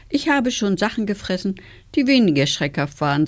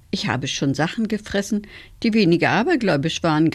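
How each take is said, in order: First: Mildly sighing wolf; a touch of weary complaint. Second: Mildly amused wolf; a touch of sly amusement; grinning. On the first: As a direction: say it with a resigned sigh. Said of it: "seufzte er". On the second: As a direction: say it through a grin. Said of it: "grinste der Graue". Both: A narrator's reading.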